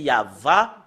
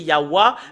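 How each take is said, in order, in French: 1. La deuxième consonne est un son v. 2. La deuxième consonne est un son w. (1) "si nous revenons à l'hébreu ancien" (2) "d'après les Européens"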